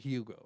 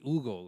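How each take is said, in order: First: The name is said with an English pronunciation. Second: The name is said with a Spanish pronunciation. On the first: The speaker calls it wrong. "I wouldn't say the Hugo" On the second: The speaker calls it right. "in Spanish it'd be Hugo"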